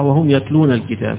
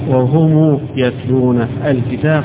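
First: 'Wahum' ends on a plain 'm' sound. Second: 'Wahum' ends with an added 'u' vowel. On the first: "قراءة الجمهور بغير الصلة" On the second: "على الأصل في الضمير"

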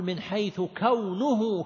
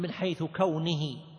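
First: The word kawn ends in a u vowel. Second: The word kawn ends in an i vowel. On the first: The word after it is the subject of a clause. The speaker calls it right. "الصواب أن تقول من حيث كونه كذا" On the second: The word after it is treated as a possessed noun. The speaker calls it wrong. "بعض الناس يقول من حيث كونه"

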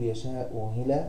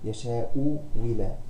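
First: The second hamza is eased into a soft glide. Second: The second hamza is replaced by a w sound. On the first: "التسهيل تسهيل الهمزة الثانية" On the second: "الإبدال حرف مد مجانس لحركة الهمزة الأولى"

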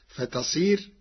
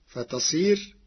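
Both takes have the same delivery.

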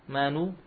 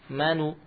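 No difference in how they are said.

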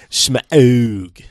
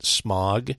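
First: The vowel sounds like the ow in 'cow'. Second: The vowel sounds like the o in 'hot'. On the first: The speaker calls it right. "but it is, according to the film, Smaug" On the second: The speaker calls it wrong. "I pronounced it as if it was the pollutant smog"

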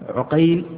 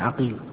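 First: The first vowel is u, as in Uqayl. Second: The first vowel is a, as in Aqil. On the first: It names the student of al-Zuhri. "هو الوحيد الذي ينطق بضم العين" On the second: It names the grandfather and the other narrators. "وجده بفتح العين عقيل"

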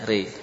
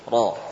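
First: The vowel sounds like 'e'. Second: The vowel sounds like an open 'a'. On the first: This is the reading with imalah. "Namun dibaca re" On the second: This is the original form before imalah. "Asalnya roh. ... Maftuh"

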